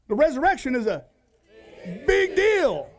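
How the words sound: It sounds excited and emphatic.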